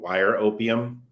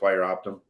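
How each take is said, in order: First: The second word sounds like opium. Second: The second word sounds like optum. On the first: The name is mangled as a deliberate joke. The speaker calls it wrong. "I'm just gonna say it like that on purpose" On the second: This is the name as it really is. The speaker calls it right. "even though I know it's wire optum"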